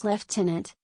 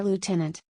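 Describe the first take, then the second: First: "lieutenant" said as "leftenant"; British pronunciation. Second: "lieutenant" said as "lootenant"; US pronunciation. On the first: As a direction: say "lieutenant" the British way, with an f: lef-tenant. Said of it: "In British English, the word is pronounced". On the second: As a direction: say "lieutenant" the American way, without an f: loo-tenant. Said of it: "whereas in the United States, you'll hear". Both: Shown as a demonstration.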